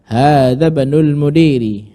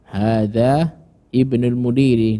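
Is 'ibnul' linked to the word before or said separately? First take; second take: linked; separate. First: Hadza runs straight into bnul without the i. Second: The i of ibnul is sounded separately. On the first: The speaker calls it right. "yang benar" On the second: The speaker calls it wrong. "tidak boleh"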